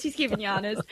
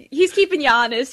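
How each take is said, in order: First: Softer repeat through a laugh. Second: Bright, louder playful tease; teasing, louder. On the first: Host repeating the tease to the priest, softly laughing. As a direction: say it again half to yourself, giggling. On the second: Host teasing the priest about his accent, louder. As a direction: jab at him playfully, out loud. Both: Real, not acted.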